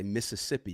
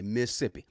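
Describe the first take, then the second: First: Mississippi spelled out in full, four even syllables Mis-sis-sip-pi; wrong way. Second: Mississippi clipped to Missippi, the middle syllable swallowed. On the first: Host showing the way you must not say the state, full four syllables. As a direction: say Mississippi the textbook way, every syllable. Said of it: "You can't say Mississippi". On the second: Host whose parents are from Mississippi showing the right way, clipped Missippi. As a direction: drop a syllable: Mississippi as Miss-ip-pi. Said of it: "You gotta say Mississippi". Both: Shown as a demonstration.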